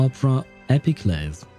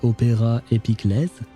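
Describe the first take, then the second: First: It is said with an English pronunciation. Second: It is said with a French pronunciation.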